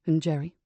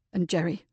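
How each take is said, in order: First: Put-on childlike, anger gone. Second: Voice cracking. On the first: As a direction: ask it like a lost child. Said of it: "voice had lost all its anger, like a child". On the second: Acted. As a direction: let the voice crack with hurt. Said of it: "Richard's voice cracked with emotion".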